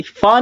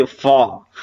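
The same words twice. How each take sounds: First: फा as plain "phaa", higher-pitched; wrong sound. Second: फा as "faa", lower-pitched; nukta sound. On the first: Teacher showing learners what to avoid, wrong sound. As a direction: say फा with lips closed, a puffed p instead of f. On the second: Teacher correcting learners' consonant, nukta sound. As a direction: say फा with an f rather than a puffed p. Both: Shown as a demonstration. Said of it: "फा नहीं है".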